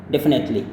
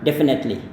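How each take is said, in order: No difference in how they are said.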